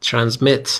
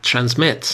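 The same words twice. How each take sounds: First: Transmit said trans-MIT, last syllable stressed. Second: Said in the usual way. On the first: Shown as a demonstration. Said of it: "استرس روی هجای آخر". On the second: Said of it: "تلفظ رو دقت کنید".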